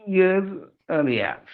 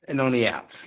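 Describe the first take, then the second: First: Good on the outs, slow and higher, GOOD lifted; slow emphatic correction. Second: Said in the usual way. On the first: Shown as a demonstration. Correcting the phrase he just said, slow with Good stressed. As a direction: lean on Good, stretch the whole phrase slowly.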